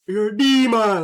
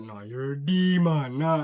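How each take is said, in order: First: Loud, high jab at a friend; joking call-out. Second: Slow, drawn-out joking dismissal; mock disgust. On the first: Retold or imitated. Calling a friend a demon as a loud joke. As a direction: bark it out as a joking tease. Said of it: "more of an, a joking term". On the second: Clowning a homie after something weird, slow mock disgust. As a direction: stretch it out like you're done with him. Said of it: "Like, it's a joke".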